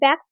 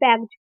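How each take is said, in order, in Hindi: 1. यह शब्द सिसकती हुई s की आवाज़ से खत्म होता है। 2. यह शब्द भनभनाती हुई z की आवाज़ से खत्म होता है। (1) "कई लोग इसे क्या प्रोनाउंस करते हैं ... ना पढ़कर" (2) "एस को क्या प्रोनाउंस कर रहे हैं हम जा के रूप में"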